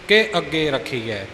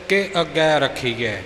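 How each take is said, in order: No difference in how they are said.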